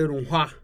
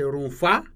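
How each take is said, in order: First: The middle consonant is an hw sound. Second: The middle consonant is an f sound. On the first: This is the form used in Niger and some areas. "HW, which give the sound hua" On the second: This is the standard Hausa form. "for the standard Hausa, it became F"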